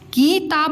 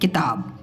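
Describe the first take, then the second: First: The first vowel is drawn out long. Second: The first vowel is kept short. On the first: The speaker calls it wrong. "किताब नहीं" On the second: The speaker calls it right. "हम बोलते हैं किताब"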